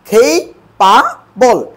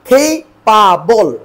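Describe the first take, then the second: Both takes have the same delivery.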